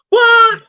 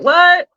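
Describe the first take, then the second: First: It is said in a put-on imitation voice. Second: It is said in the speaker's ordinary voice.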